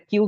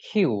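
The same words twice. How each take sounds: First: Said in the usual way. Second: "কিউ" with a puffed খ in place of ক; aspirated Q. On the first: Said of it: "এটা কিউ কিন্তু না". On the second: Shown as a demonstration. Teacher correcting the letter Q, "কিউ" with aspirated খ. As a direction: say "কিউ" as "খিউ", air after the K. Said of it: "এটার উচ্চারণ হচ্ছে".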